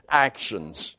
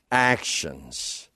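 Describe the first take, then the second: First: "Actions." set down firmly and low, falling to a stop; firm correction. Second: "Actions." again, much lower and softer, almost under the breath; hushed repeat. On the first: Corrects his own misquote. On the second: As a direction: let "Actions." sink to a quiet echo. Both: Real, not acted.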